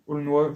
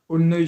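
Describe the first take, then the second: First: The name ends with a 'wah' sound. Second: The name ends with an 'uhy' sound. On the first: The speaker calls it right. "je crois que ça se prononce Aulnois d'ailleurs" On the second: The speaker calls it wrong. "j'arrive jamais avec leur nom"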